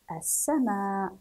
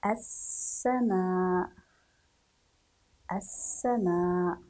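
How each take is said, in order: First: "السماء" slowly as as-samaa, final vowel long; slow careful reading. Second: "السماء" slow, with a long hissed s; writing-pace dictation. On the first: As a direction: read "السماء" measured and joined. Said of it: "نقرأ هذه العبارة". (قراءة "السماء" بتأنٍّ) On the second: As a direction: dictate "السماء" stretching the first s and last aa. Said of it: "نحاول أن نكتب". (إملاء "السماء" ببطء مع مد السين) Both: Shown as a demonstration.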